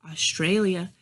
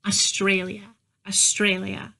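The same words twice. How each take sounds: First: "Australia" monotone, no lift; level, uninflected "Australia"; flat masculine cadence. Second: "Australia" lilting up and down; "Australia" going up, then down; feminine inflection. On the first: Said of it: "doesn't sound like how a woman would say it". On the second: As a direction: say "Australia" with sharp vowels and inflection. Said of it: "she'll add inflection". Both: Shown as a demonstration.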